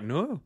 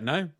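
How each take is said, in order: First: It is said in a Welsh accent. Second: It is said in a plain accent.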